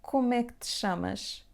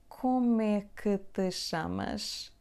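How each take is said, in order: First: The question is said at a fast pace. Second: The question is said at a normal pace.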